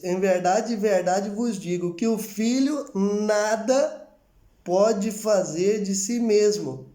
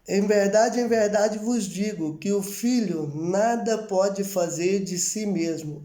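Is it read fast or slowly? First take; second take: slowly; fast. First: It is read slowly and deliberately. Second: It is read at a normal, faster pace.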